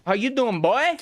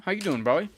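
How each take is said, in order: First: Excited shouted greeting. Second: Upbeat friendly hello, a little raised; friendly greeting. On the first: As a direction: yell the hello up high with glee. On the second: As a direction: greet him like a buddy. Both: Real, not acted. Greeting repeated, second time bigger.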